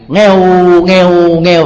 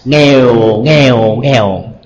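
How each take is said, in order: First: Each syllable is said on a level tone. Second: Each syllable is said on a falling tone. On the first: It imitates a cat's meow. "Con mèo thường nó có tiếng kêu như thế này" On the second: It means poor, poor, poor. "khác nhau ở cái thanh sắc bằng trở thành huyền thôi"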